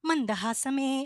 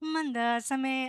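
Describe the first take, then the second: First: The middle h sound is clearly pronounced. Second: The middle h sound is dropped. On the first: This is the older, strict style. "പണ്ടത്തെ ഒരു diction വെച്ച് നോക്കുകയാണെങ്കിൽ മന്ദഹാസമേ അങ്ങനെ പാടിയാലേ അത് accept ചെയ്യുള്ളായിരുന്നു" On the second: This is the newer, relaxed style. "പുള്ളിക്കാരി പാടിയേക്കുന്നത് മ- ഉം, മന്ദാസമേ അങ്ങനെയാണ് പാടിയിരിക്കുന്നത്"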